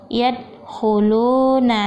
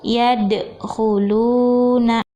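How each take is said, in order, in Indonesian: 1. Bunyi d berhenti datar tanpa gema. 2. Bunyi d berakhir dengan gema kecil yang memantul. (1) "nah itu salah ya" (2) "Yang benar"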